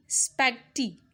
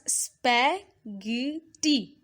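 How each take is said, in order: First: Said in the usual way. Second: Spaghetti slowly split as spa, ghe, tti; syllable by syllable. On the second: Shown as a demonstration. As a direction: sound out spaghetti in three separate beats. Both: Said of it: "we pronounce it as".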